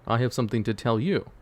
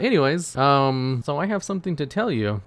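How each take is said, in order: First: Level, composed answer in usual pitch; Norden's measured reply. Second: Higher, louder brush-past opener; eager newcomer. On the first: Norden answers the newcomer, measured and composed. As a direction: turn it back evenly on the visitor. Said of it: "he's like". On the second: Newcomer has news for Norden, higher and eager. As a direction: move on briskly in a raised voice. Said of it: "He's like". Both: Acted.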